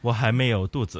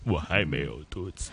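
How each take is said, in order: First: It is said in a normal voice. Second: It is said in a creaky, bubbly voice.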